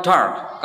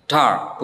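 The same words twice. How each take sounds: First: Dark with a sounded r; wrong rhotic dark; American dark with r. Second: Dark said dahk with r dropped; British dark, no r. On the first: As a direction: roll through the r in dark. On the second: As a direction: drop the r in Dark. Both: Shown as a demonstration. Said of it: "bukan dark".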